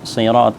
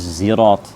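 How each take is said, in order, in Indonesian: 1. Kata ini diawali dengan s emfatik, s yang berat. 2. Kata ini diawali dengan bunyi z. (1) "bukan sirat" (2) "membacanya dengan bacaan zai"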